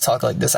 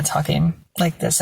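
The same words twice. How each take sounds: First: Said in the usual way. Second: Higher demonstration voice, imperfectly done; put-on high voice. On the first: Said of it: "that's why I just talk like this". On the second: Shown as a demonstration. Showing the voice they started using, put-on high voice. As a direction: try lifting the voice higher. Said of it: "that's when I started kinda talking like this".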